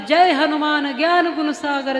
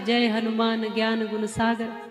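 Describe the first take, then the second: First: It is recited loudly and forcefully. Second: It is recited calmly and softly.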